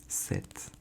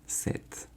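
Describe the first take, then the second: No difference in how they are said.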